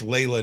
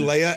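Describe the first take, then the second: First: The name has an L sound in the middle. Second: The name has no L sound in the middle.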